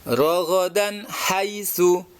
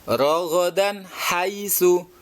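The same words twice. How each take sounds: No difference in how they are said.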